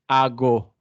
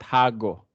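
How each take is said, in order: First: The h at the start is silent. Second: The h at the start is sounded. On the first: The speaker calls it right. "yung H sound dapat silent" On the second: The speaker calls it wrong. "not hago"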